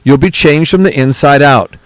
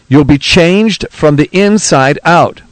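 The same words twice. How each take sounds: First: It is read at a normal speed. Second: It is read more slowly.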